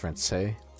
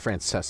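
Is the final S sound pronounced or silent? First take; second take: silent; pronounced. First: The final S sound is silent. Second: The final S sound is pronounced. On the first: The speaker calls it right. "The S is silent" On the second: The speaker calls it wrong. "So it's not Frances"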